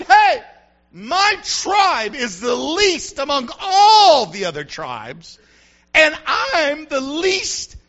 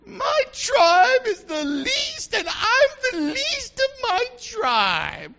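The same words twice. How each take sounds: First: Loud, drawn-out acted protest; arguing with God. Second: Very high, slow, squeaky whine; squeaky Gideon. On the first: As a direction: protest loudly, stretching the key words. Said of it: "he argued with God. He said". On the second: Acted. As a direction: squeak it out, nasal and drawn-out. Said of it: "I think Gideon had a squeaky voice".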